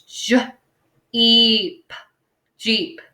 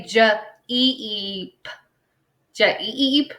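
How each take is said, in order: First: J-E-P drawn out sound by sound, then Jeep blended; slow sounding out. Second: J-E-E-P said slowly as separate sounds, the wrong way; wrong split spelling. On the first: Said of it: "So it's". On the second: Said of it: "I'm not gonna say". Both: Shown as a demonstration.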